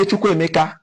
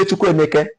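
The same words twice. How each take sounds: First: "Chukwuemeka" with final -ka; other dialect pronunciation. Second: "Chukwuemeke" with final -keh; Anambra pronunciation. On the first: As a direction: end "Chukwuemeka" on an open "ah". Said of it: "Others, we say Chukwuemeka". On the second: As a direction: say "Chukwuemeke" ending on "eh". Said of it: "Part of Anambra". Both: Shown as a demonstration.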